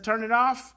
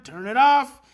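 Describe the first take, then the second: First: Said in the usual way. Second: Firm command. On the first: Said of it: "I finally said to one of the boys". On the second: Retold or imitated. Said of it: "I said to him".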